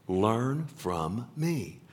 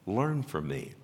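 First: Very slowly, word by word; slow, deliberate emphasis. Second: Said in the usual way. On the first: Acted. Preacher repeats Jesus' command to the congregation, slow and deliberate. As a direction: spell out the command, one word at a time.

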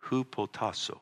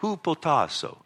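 First: Said in the usual way. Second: Hupotasso with pitch raised high, HOO-po-TAH-so; computer pronunciation. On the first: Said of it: "I have it down here phonetically". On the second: Retold or imitated. Pastor mimicking the Greek app's Hupotasso pronunciation. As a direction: copy the computer's voice saying Hupotasso. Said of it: "I have to put that accent because that thing on my computer is how it does it".

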